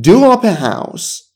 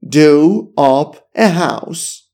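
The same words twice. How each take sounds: First: Very slow, starting high; slow high model. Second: Very slow, at usual pitch; slow level repeat. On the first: Teacher introducing do up, very slowly and high. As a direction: pitch up and stretch it out. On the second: Teacher repeating do up, very slowly. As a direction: repeat it slowly without the lift. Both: Shown as a demonstration. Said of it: "دو آپ کنی".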